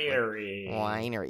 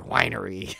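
First: It does not sound like a wine-making place. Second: It sounds like the word for a wine-making place. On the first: The speaker calls it right. "It's Winery. Like that" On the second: The speaker calls it wrong. "it's not winery like you know, Paul Masson, right? Vineyards"

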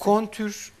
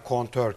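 First: The second vowel is a 'ü' sound. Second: The second vowel is an 'ö' sound. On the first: The speaker calls it wrong. "Kontür diyor mesela" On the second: The speaker calls it right. "kontör kelimesine"

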